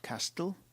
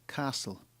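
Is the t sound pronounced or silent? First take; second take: pronounced; silent. First: The t sound is pronounced. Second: The t sound is not pronounced. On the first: The speaker calls it wrong. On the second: The speaker calls it right. "It's a silent T"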